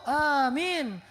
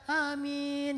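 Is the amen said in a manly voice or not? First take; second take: manly; not manly. First: It is said in a strong, manly voice. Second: It is said in a weak, unmanly voice.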